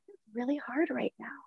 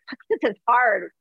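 First: It is said in a gentle, kind tone. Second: It is said in a harsh, judgmental tone.

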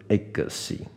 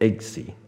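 First: An extra vowel follows the g sound. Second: The g runs straight into the s sound. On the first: The speaker calls it wrong. "不是eggsy" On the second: The speaker calls it right. "它是念eggsy"

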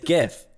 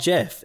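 First: It begins with a hard g sound. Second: It begins with a soft j sound. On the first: The speaker calls it right. "It's a hard G" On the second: The speaker calls it wrong. "It's not JIF"

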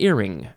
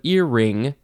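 First: The second syllable gets no extra emphasis. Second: The second syllable gets slight extra emphasis. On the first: It names a line fastening a sail to the yard. "in this one, you don't really emphasize it" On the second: "Earring on your ear, you emphasize the second syllable a bit"

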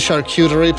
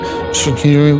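First: The word is said clearly and with confidence. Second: The word is mumbled, unsure and questioning. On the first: The speaker knows how to say it. The speaker calls it right. "I'm pretty confident in the way I say it now" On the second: The speaker does not know how to say it. The speaker calls it wrong. "I would have sort of mumbled it because I didn't know how to say it"

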